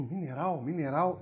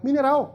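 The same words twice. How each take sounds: First: Low, quiet, questioning repetition; "mineral" low and tentative, ending on a rise; pondering. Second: "mineral" pitched up high with a falling end; the penny drops on "mineral"; acted aha moment, higher and firmer; sudden realization. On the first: Retold or imitated. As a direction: mull "mineral" over softly to yourself, puzzled. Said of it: "Eu digo". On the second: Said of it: "claro, vegetal, animal, mineral, que legal".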